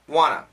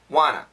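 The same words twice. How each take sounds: The two takes are said the same way.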